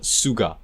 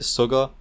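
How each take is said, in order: First: The name is said with a Japanese accent. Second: The name is said with an English accent. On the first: The speaker calls it right. "I've got to like put the Japanese accent on it" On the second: The speaker calls it wrong. "Am I pronouncing that right?"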